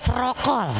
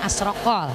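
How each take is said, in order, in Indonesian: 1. Tidak diawali vokal dan vokalnya 'o'. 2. Diawali vokal dan vokalnya 'o'. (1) "Ada yang alifnya dibuang" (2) "orang dulu mah nyebutnya asrokol"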